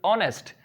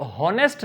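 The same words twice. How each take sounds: First: ऑनेस्ट starting straight on the vowel, no h; silent h. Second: हॉनेस्ट with a clear spoken h at the start; wrong pronunciation. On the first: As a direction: say ऑनेस्ट as "onest", h dropped. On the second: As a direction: say हॉनेस्ट as "honest", breathing the h. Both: Shown as a demonstration. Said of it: "इसको बच्चों हॉनेस्ट नहीं पढ़ते".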